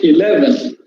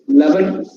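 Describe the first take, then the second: First: The opening E sound is clearly pronounced. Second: The opening E sound is suppressed. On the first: The speaker calls it right. "E sound should be there" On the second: The speaker calls it wrong. "We are totally suppressing the E sound"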